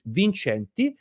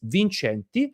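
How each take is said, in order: First: It is said with an Italian pronunciation. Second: The same.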